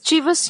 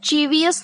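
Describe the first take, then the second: First: It ends with a short '-vus' sound. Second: It has an extra 'ee' before '-us'. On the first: The speaker calls it right. "चीवस यानी" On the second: The speaker calls it wrong. "चीवियस नहीं बोलना है"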